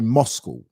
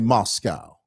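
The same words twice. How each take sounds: First: It is said the British way. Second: It is said the American way. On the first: "The British say Moscow" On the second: "The Americans say Moscow"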